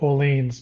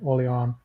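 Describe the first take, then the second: First: The name is said the English way. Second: The name is said the French way. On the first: This is the speaker's usual pronunciation. "I pronounce it Orleans" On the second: This is how a teammate usually pronounces it. "the more French way"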